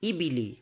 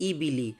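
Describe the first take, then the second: Both takes have the same delivery.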